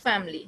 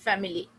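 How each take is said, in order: First: "Family" squeezed to two syllables, fam-ly; "Family" as fam-ly, not fa-mi-ly; correct family. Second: "family" with all three syllables, fa-mi-ly; the wrong full "family"; "family" said fa-mi-ly, marked as wrong. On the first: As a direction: say "Family" dropping the middle syllable. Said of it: "Family, not family". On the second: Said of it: "not family". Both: Shown as a demonstration.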